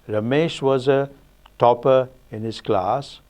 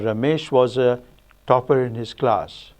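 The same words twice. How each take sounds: First: The sentence is split into three phrases. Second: The sentence is split into two phrases. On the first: "either three" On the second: "or two"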